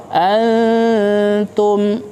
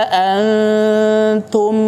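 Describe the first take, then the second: No difference in how they are said.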